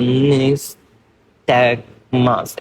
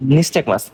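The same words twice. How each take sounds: First: "nystagmus" dragged slowly, broken apart as nnniis... tag... mas; slurred dysarthric speech. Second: Said in the usual way. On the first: Shown as a demonstration. Teacher showing students how a patient says "nystagmus", slurred and halting. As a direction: imitate a patient slurring "nystagmus", syllables drawn out and disconnected. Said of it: "স্লার করে করে বলবে". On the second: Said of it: "এই শব্দটা যখন সে উচ্চারণ করবে".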